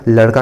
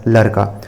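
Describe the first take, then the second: First: Said in the usual way. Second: "लड़का" as larka, tapped r for ṛ; Chhattisgarhi pronunciation. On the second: Shown as a demonstration. Teacher revises the dialect example, "लड़का" with r for ṛ. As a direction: say "लड़का" with a plain r, no flap. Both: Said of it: "ड़ के स्थान पर र".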